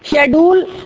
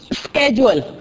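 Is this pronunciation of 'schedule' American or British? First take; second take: British; American. First: The word begins with a 'sh' sound. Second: The word begins with an 'sk' sound. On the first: "اور شیڈول کون بولتا ہے؟ برطانیہ" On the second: "تو اسکیجول کون بولتا ہے؟ امریکن"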